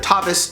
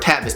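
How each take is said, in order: First: It is pronounced in a refined, classy way. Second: It is pronounced in a casual, street way. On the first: The speaker wants to sound classy.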